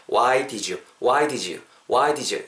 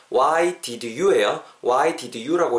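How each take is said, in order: First: "Why did you" with did you fused into "di-joo"; linked did-you. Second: "Why did you" with did and you kept apart; "Why did you" unlinked, word by word; separate words. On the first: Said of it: "did you가 붙으면서 did you, did you 요렇게 붙는다". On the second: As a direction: sound the D of did, then a distinct "you" in "Why did you". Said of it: "틀린다는 뜻은 아니지만". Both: Shown as a demonstration.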